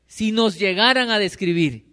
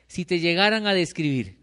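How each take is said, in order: First: Más alto y fuerte, insistiendo; repítelo con más fuerza para que pese; énfasis más fuerte. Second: Said in the usual way. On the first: Shown as a demonstration. (repetición enfática, más alta y fuerte)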